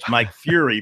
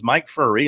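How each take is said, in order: First: The name sounds like the word fury. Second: The name sounds like the word furry. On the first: This is the earlier way the name was said. The speaker calls it wrong. "that's how we uh, pronounced it originally" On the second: This is the way the name is actually said. The speaker calls it right. "that's how it is pronounced"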